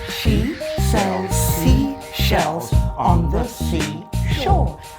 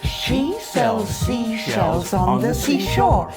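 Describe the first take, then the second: First: It is said at a slower pace. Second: It is said at a faster pace.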